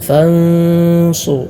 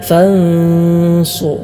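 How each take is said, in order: No difference in how they are said.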